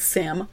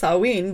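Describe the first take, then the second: First: The name is read out letter by letter. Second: The name is said in the traditional Gaelic way. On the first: This is how the name looks when written. "when you're typing it out, it's Samhain" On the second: This is how the name is really pronounced. "remember when you're recording that it's Samhain"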